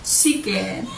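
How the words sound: The word begins with an s sound. "they say siken. Parang bata lang eh"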